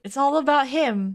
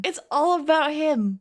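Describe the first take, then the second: First: "about" stressed, falling at the end. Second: "all" stressed, falling at the end. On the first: Rereading the text, pushing on "about". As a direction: lean on "about". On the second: Rereading the text, punching "all" instead. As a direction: hit the word "all". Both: Shown as a demonstration.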